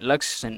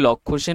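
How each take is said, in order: First: The first name is clipped short to Laks. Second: The first name is said in full as Lakshya. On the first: The speaker calls it right. "Actually এটাকে উচ্চারণ করে লাক্স Sen" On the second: The speaker calls it wrong. "উচ্চারণটা আমরা বাংলায় করলে লক্ষ্য সেন হয়"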